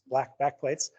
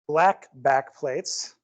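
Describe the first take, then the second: First: It is said quickly, like a tongue twister. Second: It is said at a normal speed.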